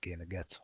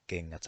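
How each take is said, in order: First: The G is pronounced as a hard G. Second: The G is pronounced as a soft G. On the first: The speaker calls it wrong. "They are not pronounced as" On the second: The speaker calls it right. "it's a soft G"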